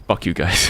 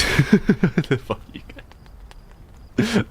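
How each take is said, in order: First: Said in the usual way. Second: Breaking up laughing, words drawn out. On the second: Real, not acted. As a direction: laugh helplessly through the curse. Repeats it while breaking into laughter.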